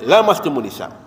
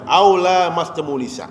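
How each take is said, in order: First: The vowel after the L is short. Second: The vowel after the L is long. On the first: Simply touching a woman. "dibaca pendek" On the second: Both parties actively touch each other, meaning intercourse. "lamnya lam panjang"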